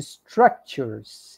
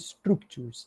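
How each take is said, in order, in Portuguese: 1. A vogal depois de str é aberta, como 'a'. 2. A vogal depois de str soa como 'oo'. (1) "o U tem esse som às vezes mais aberto, que parece um som de A" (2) "em vez de structures"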